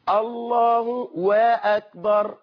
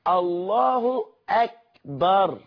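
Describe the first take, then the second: First: A w sound is added before akbar. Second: Akbar follows with no added w sound. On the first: The speaker calls it wrong. "يجيب لك واو ما بين الله وكلمة أكبر" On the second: The speaker calls it right. "في ضم على الهاء في كلمة الله"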